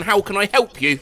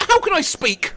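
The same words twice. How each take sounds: First: Said in the usual way. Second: High, bright slip of a greeting; high phone greeting. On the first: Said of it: "rather than". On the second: Retold or imitated. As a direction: chirp it up high like answering a call. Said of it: "I once answered the phone with".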